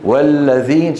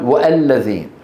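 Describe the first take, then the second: First: No glottal stop; 'wa' links straight into 'l'. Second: A glottal stop is pronounced before 'al'. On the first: The speaker calls it right. "ولو وضعنا واو هنا ماذا نقول؟" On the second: The speaker calls it wrong. "لم لم نقل والذين"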